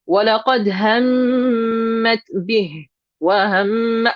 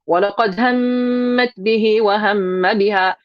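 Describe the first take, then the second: First: There is a short pause within the phrase. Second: The phrase runs on without any pause. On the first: The speaker calls it right. "You're actually supposed to take a little pause there" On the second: The speaker calls it wrong. "you're not supposed to actually just say"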